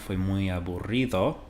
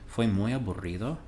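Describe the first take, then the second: First: The voice falls at the end like a statement. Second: The voice rises at the end like a question. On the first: It states that it was very boring. "It was very boring" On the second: It asks whether it was very boring. "Was it very boring?"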